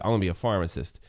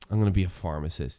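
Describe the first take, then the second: First: It sounds confident and motivated. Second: It sounds unsure and unmotivated.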